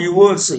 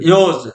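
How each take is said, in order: First: It is said as two separate syllables. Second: It is said as one short syllable. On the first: The speaker calls it wrong. "Not யுவர்ஸ்" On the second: The speaker calls it right. "யோஸ் not யுவர்ஸ்"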